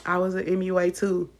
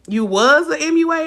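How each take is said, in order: First: Said in the usual way. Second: Sarcastic echo of a viewer's comment; mock disbelief. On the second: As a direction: throw the claim back in disbelief. Mocking the commenter's claim back.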